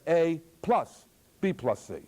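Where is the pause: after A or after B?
After A. B and C are grouped, pause after A. B and C are added first. "as if you added A to B and C"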